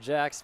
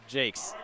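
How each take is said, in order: First: The name has a short 'a' like 'max'. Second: The name has a long 'ay' like 'takes'. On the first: The speaker calls it wrong. "not Jax" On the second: The speaker calls it right. "but Jakes"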